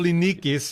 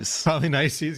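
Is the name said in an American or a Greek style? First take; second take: Greek; American. First: The name is said in a Greek way. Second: The name is said in a modern American way. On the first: "what it would be in Greek" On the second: "a kind of a modern American pronunciation of these names"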